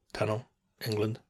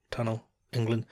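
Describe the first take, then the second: No difference in how they are said.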